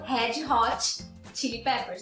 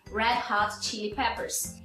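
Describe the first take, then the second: First: It is said with Brazilian Portuguese sounds. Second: Retroflex R and breathy H, English-style. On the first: The speaker calls it wrong. "a gente fala no Brasil" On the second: The speaker calls it right. "Primeiro com um R retroflexo e segundo com um aspirado"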